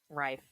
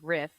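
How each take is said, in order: First: The name has a long vowel. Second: The name has a short vowel. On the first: The speaker calls it right. "That's how you're supposed to say it" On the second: The speaker calls it wrong. "Everybody says Eve Riff"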